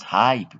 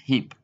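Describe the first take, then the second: First: The vowel is a long 'eye' sound. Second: The vowel is a short 'ih' sound. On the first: The speaker calls it wrong. "not hype" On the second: The speaker calls it right. "but hip"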